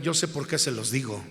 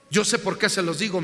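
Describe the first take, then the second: First: Said in the usual way. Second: Yo sé por qué se los digo said louder, qué stressed with a rise; louder repeat. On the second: Acted. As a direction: repite la frase más fuerte, acentuando qué. (repetición enfática, más fuerte) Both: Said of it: "repeated louder".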